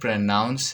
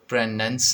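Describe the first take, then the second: First: The second syllable is said 'noun'. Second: The second syllable is said 'nun'. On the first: The speaker calls it right. "प्रोनाउंस का सही उच्चारण प्रोनाउंस है" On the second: The speaker calls it wrong. "प्रोनंस नहीं"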